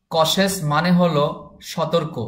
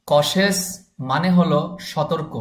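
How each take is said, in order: Both takes have the same delivery.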